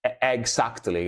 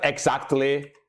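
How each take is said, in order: First: EXACTLY said as "egg-sactly"; egg pun. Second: Said in the usual way. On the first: Shown as a demonstration. Streamer explaining a pun to chat, egg pun. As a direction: put a clear EGG at the front of exactly. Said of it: "with the egg". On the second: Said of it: "not exactly, spelled like this".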